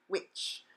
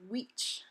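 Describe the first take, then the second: First: The syllable has an English i vowel. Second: The syllable has a Spanish i vowel. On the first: The speaker calls it wrong. "not which" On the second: The speaker calls it right. "the second uh, syllable is which"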